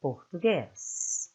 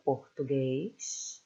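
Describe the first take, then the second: First: Português ending in a crisp hissed S, Spanish style. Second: Português ending in a soft SH sound, Lisbon style; Portugal S. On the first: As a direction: end português on a sharp clean S. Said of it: "like the Spanish S". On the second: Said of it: "like the Portuguese from Portugal". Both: Shown as a demonstration.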